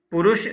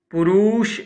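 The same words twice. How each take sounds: First: पुरुष said correctly, short u vowels, with a laugh; पुरुष with a crisp ending sound; correct pronunciation. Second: पुरुष said wrongly in a higher, louder put-on voice; mock the mistaken पुरुष, pitched up; wrong pronunciation. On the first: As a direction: sahi uchcharan: पुरुष with a laugh. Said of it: "पुरुष शुद्ध है". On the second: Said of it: "अशुद्ध है". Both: Shown as a demonstration.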